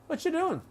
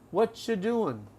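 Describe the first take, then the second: First: The phrase is said quickly at conversational speed. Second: The phrase is said slowly and deliberately. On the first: "Normal speed" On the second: "I'll do it slowly"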